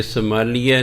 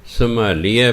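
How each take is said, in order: First: ਸੰਭਾਲੀਐ ending in -ya, səmalija; wrong pronunciation. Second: ਸੰਭਾਲੀਐ ending in a clear -ie, səmalie; correct pronunciation. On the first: Teacher shows the mistaken ending, səmalija. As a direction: end ਸੰਭਾਲੀਐ with a glided -ya. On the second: Teacher gives the correct ending, səmalie. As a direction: end ਸੰਭਾਲੀਐ on -i-e. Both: Shown as a demonstration. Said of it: "ਇਹ ਸੰਭਾਲੀਐ ਨਹੀਂ ਪੜ੍ਹਨਾ".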